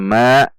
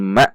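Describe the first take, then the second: First: The syllable ends smoothly without a catch. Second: The syllable ends with an abrupt glottal catch. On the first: The speaker calls it wrong. "bukan dibaca ma" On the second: The speaker calls it right. "namun ma"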